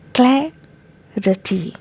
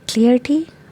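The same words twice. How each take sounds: First: The first syllable has a short 'a' sound. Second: The first syllable sounds like the word clear. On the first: The speaker calls it right. "here we have a sound" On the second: The speaker calls it wrong. "Maybe they are confused with the word clear. That's why they say clarity"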